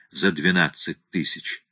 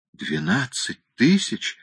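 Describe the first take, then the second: First: Said in the usual way. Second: Slow, higher groan of disbelief; dismayed groan. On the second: A narrator's reading. Client echoes the lawyer's price, groaning in dismay. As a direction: groan the sum back slowly, pitch climbing. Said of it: "застонал бедняга Фредди".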